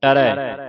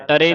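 First: ਟਰੈ ending in open ai; ਟਰੈ as ta-rai. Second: ਟਰੇ ending in closed e; ਟਰੇ as ta-ray. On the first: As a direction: widen the last vowel of ਟਰੈ. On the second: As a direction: narrow the last vowel of ਟਰੇ. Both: Shown as a demonstration. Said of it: "ਟਰੇ ਨਹੀਂ ਪੜ੍ਹਨਾ".

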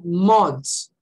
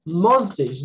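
First: "months" ending in ts, like "monts"; simplified plural. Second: "Months" with th and a separate s, like "month-tes"; awkward literal plural. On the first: Teacher showing how they really say it, simplified demo. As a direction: drop the th in "months" for a plain ts. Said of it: "Eu falo months". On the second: Teacher showing it is too hard to say, awkward demo. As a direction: sound out every final consonant of "Months" laboriously. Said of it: "Não dá pra falar". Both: Shown as a demonstration.

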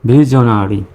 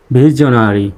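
Both takes have the same delivery.

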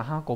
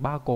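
First: "hako" starting with an h; unchanged h sound. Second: "bako" starting with a voiced b; h changed to b. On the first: Teacher cites the reading to avoid, "hako" with h. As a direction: say "hako" with h, not b. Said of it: "cũng không đọc là hako". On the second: Teacher gives learners the compound reading, "bako" with b. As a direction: say "bako" with b, not h. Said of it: "mà đọc là thành bako". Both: Shown as a demonstration.

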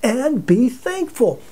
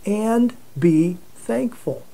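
First: "And be thankful" slow, leaning on "be"; firm emphasis on "be"; emphatic command. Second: "And be thankful" drawn out slow and grave; deliberate, weighty scripture reading; slow solemn quote. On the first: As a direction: press the command home. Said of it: "that's a command of God". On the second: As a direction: read it as a solemn command, slowly. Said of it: "It says". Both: Shown as a demonstration.

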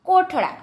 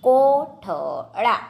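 First: Said in the usual way. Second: કોઠળા very slowly, in separate syllables; slow word demonstration. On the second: Shown as a demonstration. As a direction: break up કોઠળા for spelling. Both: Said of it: "જોડણી પર ધ્યાન આપજો".

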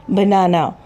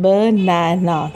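First: Said in the usual way. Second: बनाना broken slowly into three beats, ब, ना, ना; syllable by syllable. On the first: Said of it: "इसमें तीन vowel sound आ रही है". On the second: Shown as a demonstration. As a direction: sound out each vowel of बनाना slowly. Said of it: "तीन दफ़ा sound है vowel की". (बनाना को तीन हिस्सों में धीरे-धीरे)

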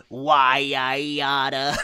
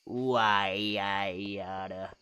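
First: Slow, loud Why I oughta; old-timey tough guy. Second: Slow low Why I oughta; old-timey tough guy. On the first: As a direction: growl it like an old cartoon. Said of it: "You want me to go". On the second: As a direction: drag it out like a gangster. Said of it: "sounds so natural". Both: Pretend.

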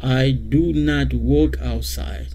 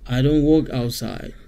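First: Slow careful I do not; full form slowly. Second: Said in the usual way. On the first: Shown as a demonstration. Teacher modelling the full negative for the class. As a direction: stretch out do not word by word.

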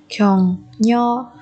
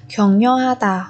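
First: 격려하다 with a pause after each syllable. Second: Said in the usual way. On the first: Shown as a demonstration. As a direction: separate every syllable of 격려하다 for learners. Teacher models word syllable by syllable.

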